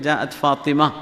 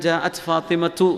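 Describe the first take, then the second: First: The name ends with an open a vowel. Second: The name ends with a tu sound. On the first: "വായിക്കുമ്പോൾ ജാഅത്ത് ഫാത്തിമ എന്ന് പറഞ്ഞാൽ മതി" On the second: "നഹ്വ് സർഫൊക്കെ പഠിച്ചു വരികയാണെങ്കിൽ ജാഅത്ത് ഫാത്തിമത്തു എന്നൊക്കെ പറയും"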